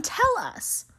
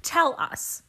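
First: High mock button voice. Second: Whispered mock button voice. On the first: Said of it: "So I hit the button". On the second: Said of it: "I take that to mean". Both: Shown as a demonstration.

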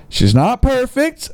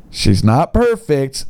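First: High, slow lilting read of the seller's line; sing-song mock fondness, raised high; mock doting owner. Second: Said in the usual way. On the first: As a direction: read it like he's doting on his girl. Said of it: "Oh boy, he's calling her by she". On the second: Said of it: "he's calling her by she".

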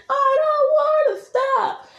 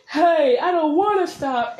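First: Very high, stretched-out refusal; escalated mock yell. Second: Raised, whining-back retort, first step of a quarrel; mock argument yell. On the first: Creator plays the partner refusing, drawn-out high mock yell. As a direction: yell it back at peak pitch, slowly. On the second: Creator plays the partner answering back, moderate mock yell. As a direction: answer back with a higher pitch. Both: Shown as a demonstration. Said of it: "It's that kind of yelling".

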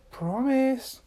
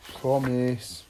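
First: High, firm single word; insistent demand. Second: Lower, resigned answer; sighing. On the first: Little Miss Magic demands Mister Tickle's word, high insistent demand. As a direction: demand it in a raised pitch. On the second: Mister Tickle reluctantly gives his word, resigned sighing tone. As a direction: give in with a sigh. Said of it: "Mister Tickle sighed". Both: A narrator's reading.

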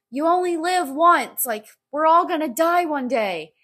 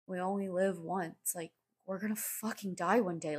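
First: High, loud, elated cheer; so happy. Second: Gloomy other side. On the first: Voicing the meme's sunshine-and-rainbows guy, happy. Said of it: "and he's so happy". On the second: Meme's other side facing death, gloomy. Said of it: "And then on the other side". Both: Acted.

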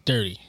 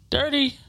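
First: Said in the usual way. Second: "Dirty" said much higher, stretched and falling; drawn-out high Dirty. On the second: Shown as a demonstration. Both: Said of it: "I'll just say, like".

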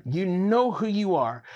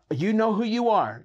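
First: Said in the usual way. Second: Higher, louder emphatic call. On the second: Acted. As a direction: point straight at them.

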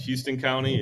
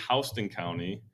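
First: Said in the usual way. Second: Houston County said "HOUSE-tun County"; Georgia pronunciation. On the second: Shown as a demonstration. Host insisting on the local name, Houston County as "HOUSE-tun County". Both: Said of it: "that's how it's pronounced".

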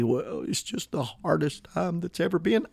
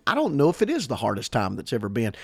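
First: Soft, feeble imitation of a complainer; mock defeatist. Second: Said in the usual way. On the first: Preacher mimicking eleventh hour mentality, mock defeatist. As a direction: softly bemoan it as a parody. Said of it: "that eleventh hour mentality".

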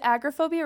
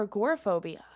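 First: "agoraphobia" as AG-ruh-PHOBIA; variant pronunciation. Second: Said in the usual way. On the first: Shown as a demonstration. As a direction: open on a stressed AG in "agoraphobia". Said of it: "that's just Southern mispronunciation". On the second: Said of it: "I've never heard it pronounced".

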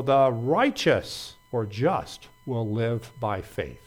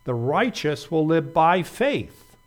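First: RIGHTEOUS punched slowly, the end dropping away; stress on righteous. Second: Slow and louder, weight landing on BY FAITH; stress on BY FAITH. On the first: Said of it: "The emphasis is on the word righteous". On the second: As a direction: drive home "by faith" with a final fall on "faith". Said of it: "the emphasis is on the words". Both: Shown as a demonstration.

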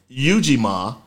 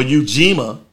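First: Ujima as YOO-jee-mah, opening syllable stressed; first pronunciation of Ujima. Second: Ujima as oo-JEE-muh, middle syllable stressed; alternative pronunciation of Ujima. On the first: Host teaching the Kwanzaa principle, Ujima said YOO-jee-mah. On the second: Host offering listeners another option, Ujima said oo-JEE-muh. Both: Shown as a demonstration. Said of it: "how you wanna pronounce it".

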